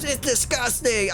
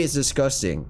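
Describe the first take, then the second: First: Mock scream. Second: Said in the usual way. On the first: Bullied girl reacting to her soiled clothes, mock scream. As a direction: squeal it as a disgusted girl. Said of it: "and she screams".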